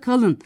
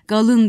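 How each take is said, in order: First: The word begins with a voiceless K sound. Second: The word begins with a voiced G sound. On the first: This is the standard form. "O aslında kalın" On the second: This is how the local dialect says it. "Galın diyorlar"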